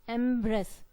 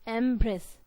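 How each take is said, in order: The two takes are said the same way.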